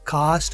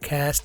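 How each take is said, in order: First: It is said with a British accent. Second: It is said with an American accent. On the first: "British है" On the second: "American है"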